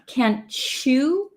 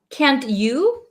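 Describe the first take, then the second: First: The final word starts with a 'ch' sound. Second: The final word is a full 'you'.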